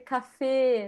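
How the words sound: It is said the way people in Austria say it.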